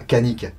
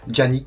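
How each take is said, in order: First: The name begins with a hard K sound. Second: The name begins with a soft J sound. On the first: This is the local adapted pronunciation. "je vais utiliser la prononciation française, le C et un A, ça fait K" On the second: This may be how it is said in the original language. "peut-être qu'en turc ça se prononce euh"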